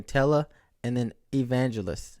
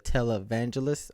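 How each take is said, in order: First: "tele" and "evangelist" as two separate words; wrong split pronunciation. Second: "televangelist" run together as one word; correct joined pronunciation. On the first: Vlogger showing an old mistake, "tele and then evangelist" split apart. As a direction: say "tele", then "evangelist" with its own opening vowel. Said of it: "I was saying tele and then evangelist". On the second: Vlogger showing the learned word, "televangelist" joined as one. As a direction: join it up as "televangelist", no extra vowel before "van". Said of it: "instead of televangelist".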